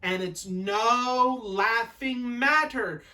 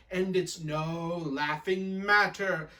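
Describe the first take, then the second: First: Slow, drawn-out stern reprimand; maid's emphatic telling-off; Sakia-san. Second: Slow, drawn-out mouthing of a scolding; mimicked reprimand. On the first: Acted. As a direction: stretch each word in a raised scolding lilt. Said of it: "Sakia-san says". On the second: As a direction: sister copying the maid, held down. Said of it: "she's going with her mouth".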